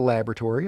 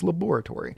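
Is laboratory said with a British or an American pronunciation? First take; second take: American; British. First: It is said with an American pronunciation. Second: It is said with a British pronunciation. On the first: The speaker calls it wrong. "It's not a laboratory, okay?" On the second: The speaker calls it right. "It's just the British pronunciation"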